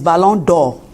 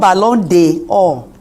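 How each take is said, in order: First: The 'd' joins directly onto 'Or'. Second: A separate vowel is heard before 'Or'. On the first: The speaker calls it right. "when you cut the E, its pronunciation is Ballon d'Or" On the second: The speaker calls it wrong. "So it's not Ballon d'Or"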